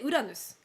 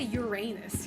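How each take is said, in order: First: It is said with a Japanese pronunciation. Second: It is said with an English pronunciation. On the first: The speaker calls it right. "I say it in Japanese pronunciation" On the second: The speaker calls it wrong. "I hate to say Uranus, you know? It sounds so stupid"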